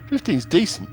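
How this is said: It is said in a put-on, weird voice.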